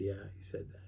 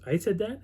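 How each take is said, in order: First: Low, much softer reply; quiet confirmation. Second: Higher-pitched, rising question; surprised question. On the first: Camper confirming his friend's earlier words, quiet confirmation. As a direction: confirm it under the voice. Retold confirmation answering the question. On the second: Friend reminded of what he said last year, surprised question. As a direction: imitate his puzzled disbelief. Retold friend denies his earlier words. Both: Retold or imitated.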